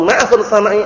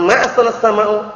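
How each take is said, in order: First: "ma ahsanas samai" with samai ending in i, the question reading; teacher demonstrates "samai" with a final i. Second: "ma ahsanas samau" with samau ending in u, the negation reading; teacher demonstrates "samau" with a final u. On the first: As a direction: land on the i of "samai". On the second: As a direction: stress the u of "samau". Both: Shown as a demonstration. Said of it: "Beda semua artinya nanti".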